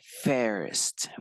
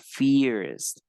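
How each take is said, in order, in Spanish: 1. La vocal suena como una 'eh' apagada. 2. La vocal suena como una 'ee' clara. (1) "es como una E ... se dice first" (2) "este no se pronuncia first, por favor, así veamos la I ahí, la I no suena allí como I"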